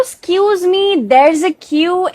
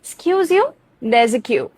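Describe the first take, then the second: First: Higher, very slow excuse me; drawn-out polite excuse me; wrong take. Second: Pointed retort. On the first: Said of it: "ऐसा नहीं कहना है". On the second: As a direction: snap back at the line-cutter. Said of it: "इस तरह से।". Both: Shown as a demonstration.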